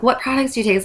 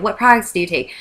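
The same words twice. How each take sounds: First: Eager, higher question; excited. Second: Said in the usual way. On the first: Retold or imitated. Asking a friend about her products, excited. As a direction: lean in, all excited to know. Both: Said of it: "So I'm all excited".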